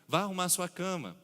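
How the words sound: It is said in a mild, advising tone. It is only a suggestion or warning. "de apenas uma advertência"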